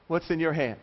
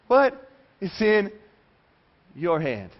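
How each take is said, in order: First: Said in the usual way. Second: "What ... is in ... your hand" broken up by long pauses; emphatic pauses. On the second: Acted. Repeats question word by word.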